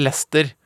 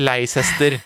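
First: The name is said in two syllables. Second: The name is said in three syllables. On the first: The speaker calls it right. "endelig lært at det heter Leicester" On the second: The speaker calls it wrong. "og ikke Leicester, som det faktisk skrives"

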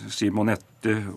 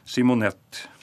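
First: The final e is pronounced. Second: The final e is silent. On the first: This is the Norwegian way to say it. "nå uttalte de kvinnenavnene på norsk måte" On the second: This is the Swedish way, following French. "men de sier ... Simonette"

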